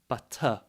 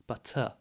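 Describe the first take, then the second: No difference in how they are said.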